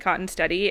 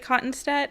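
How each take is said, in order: First: The name ends with an extra 'ee' sound. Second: The name ends on the 'stead' sound. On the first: This is how the other half of the family says it. "half the family pronounces it Cottonsteady" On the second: This is how one half of the family says it. "half the family pronounces it Cottonstead"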